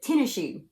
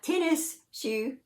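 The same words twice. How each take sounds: First: The first word ends in an a-like vowel. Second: The first word ends with a clear s sound. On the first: The speaker calls it right. "but tennis shoe. Kind of like T E N N A" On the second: The speaker calls it wrong. "Not tennis shoe"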